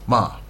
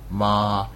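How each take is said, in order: First: The pitch sounds like a firm command. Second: The pitch stays level and flat. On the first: "like I'm telling you to do something" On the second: "very flat, that's one tone"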